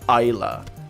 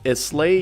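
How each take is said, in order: First: The word ends with an 'ah' sound. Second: The word ends with an 'ay' sound. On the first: The speaker calls it right. "you pronounce it Isla" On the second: The speaker calls it wrong. "in Gaelic you don't pronounce it Islay"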